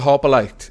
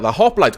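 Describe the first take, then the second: First: The name is said with three syllables. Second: The name is said with two syllables. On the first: The speaker calls it wrong. "I am going to mispronounce it Hopperlight" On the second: The speaker calls it right. "or rather"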